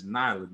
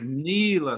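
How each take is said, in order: First: The first vowel is not a long 'ee' sound. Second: The first vowel is a long 'ee' sound. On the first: The speaker calls it wrong. "that's not it neither" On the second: The speaker calls it right. "So the E is a long"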